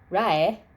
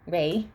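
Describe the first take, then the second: First: The vowel sounds like the word 'rye'. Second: The vowel sounds like the word 'ray'. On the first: This is how a Japanese speaker would read the spelling. The speaker calls it wrong. "Rai is more how they'd pronounce it automatically" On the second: This is the intended pronunciation of the name. The speaker calls it right. "the way it's supposed to be pronounced"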